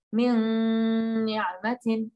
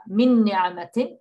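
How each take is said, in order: First: "min ni'matin" with the n of "min" held long and hummed; held ghunna on min. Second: Said in the usual way. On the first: Shown as a demonstration. Teacher modelling a nice ghunna for the class, slow and hummed. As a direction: hum the n of "min" slowly before "ni'matin". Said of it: "we say". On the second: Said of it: "We don't just say with a shadda".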